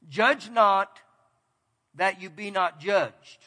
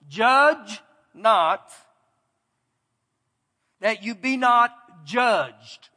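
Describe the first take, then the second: First: The verse is read at a fairly fast pace. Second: The verse is read at a slower pace. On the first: "I read it fairly fast" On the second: "I'm going to read it a little bit slower"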